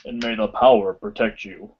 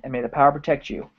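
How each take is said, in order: First: It is said in a put-on character voice. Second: It is said in a plain, natural voice. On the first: The speaker calls it right. "you gotta say it with the Zordon voice" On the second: The speaker calls it wrong. "You can't just do it"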